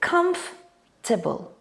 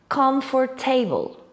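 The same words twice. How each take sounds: First: The middle letters are dropped, giving three syllables. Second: Every written syllable is pronounced, giving four syllables. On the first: The speaker calls it right. "pronounced in three syllables" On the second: The speaker calls it wrong. "say what they see"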